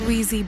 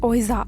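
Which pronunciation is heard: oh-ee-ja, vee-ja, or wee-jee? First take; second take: wee-jee; oh-ee-ja. First: It starts with 'wee' and ends with 'jee'. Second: It starts with 'oh' and ends with 'ja'. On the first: This is the actual pronunciation. The speaker calls it right. "The actual pronunciation is వీజీ board" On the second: This is how people commonly say it. The speaker calls it wrong. "మనమైతే ఓయిజా అని pronounce చేస్తాం"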